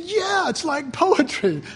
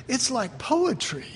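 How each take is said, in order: First: Fred's agreement, higher and slow; voicing Fred. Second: Said in the usual way. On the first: The preacher retelling how Fred agreed, higher and slower. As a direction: echo her like an amused husband, drawn out. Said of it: "And he said". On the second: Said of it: "and then she said".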